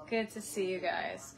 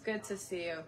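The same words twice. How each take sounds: First: Lightly put-on TV host voice; TV presenter voice. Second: Softer put-on TV host voice; a quieter, polished TV greeting; TV presenter voice. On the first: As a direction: say it like a smooth TV host. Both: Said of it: "I'm trying to talk like the people on T V".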